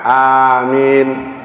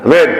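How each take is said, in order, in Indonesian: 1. Vokal di akhir dipanjangkan. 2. Diucapkan dengan cepat dan tidak sabar. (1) "belakangnya panjang karena ada huruf ya" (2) "doa udah nggak sabaran, lain suaranya udah"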